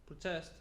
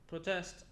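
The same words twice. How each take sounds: The two takes are said the same way.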